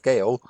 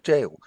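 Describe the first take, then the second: First: It begins with a hard g sound. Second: It begins with a j sound. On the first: The speaker calls it wrong. "I've always pronounced it as Gale" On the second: The speaker calls it right. "this is actually jail"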